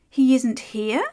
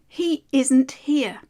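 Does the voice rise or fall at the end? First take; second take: rises; falls. First: The voice rises at the end. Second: The voice falls at the end.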